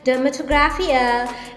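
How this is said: It is said in a British accent.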